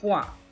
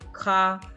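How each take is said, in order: First: The syllable begins with a qu sound. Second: The syllable begins with a plain k sound. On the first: "Quoof makes the qu sound" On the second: "Some people pronounce it with a k sound"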